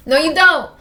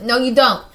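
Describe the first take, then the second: First: High, very loud insistence; emphatic protest. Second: Loud, firm rebuttal; firm contradiction. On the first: Player insisting against the character's self-doubt, high loud protest. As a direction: cry it out emphatically, pitch raised. Repeats contradiction more emphatically. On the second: Player countering the character's self-doubt, loud and firm. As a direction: cut in loudly to object. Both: Real, not acted.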